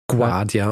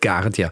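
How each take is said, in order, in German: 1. Der Name beginnt mit einem Gw-Laut. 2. Der Name beginnt mit einem einfachen G-Laut. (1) "also er spricht sich La Guardia aus. Also man hat so eher so ein Gw" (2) "und nicht"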